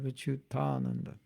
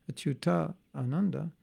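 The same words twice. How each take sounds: First: "Achyutananda" merged, softer, long "taa"; joined-syllables demo. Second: "Achyuta Ananda" with a break between words; separated-syllables demo. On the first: Explaining saved syllables, "Achyutananda" as one word. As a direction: join it into "Achyutananda" with one vowel. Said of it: "we have Achyutananda". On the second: Explaining saved syllables, "Achyuta Ananda" in two parts. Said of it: "instead of two syllables". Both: Shown as a demonstration.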